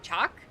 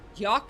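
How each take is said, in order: First: The name begins with a 'ch' sound. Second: The name begins with a 'y' sound. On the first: "I think she pronounced it like Chak" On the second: "she didn't pronounce it like"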